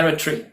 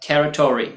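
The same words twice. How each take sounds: First: टेरिटरी as "TERRI-tree"; British टेरिटरी, ending squeezed to "tree"; UK pronunciation. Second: टेरिटरी as "TERRI-taw-ree"; American टेरिटरी with a full o; US pronunciation. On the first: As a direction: drop the o from the end of टेरिटरी. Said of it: "UK में इसको स्टैट्यूटरी यानी ट्री". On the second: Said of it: "US में इसको टॉरी pronounce करते हैं". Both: Shown as a demonstration.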